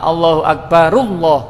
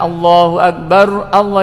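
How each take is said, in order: First: Akbar runs into Allah with no glottal stop. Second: Allah starts separately with a glottal stop. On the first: The speaker calls it right. "Allahu akbarullah yang benar ngoten" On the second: The speaker calls it wrong. "bukan Allahu akbar Allah"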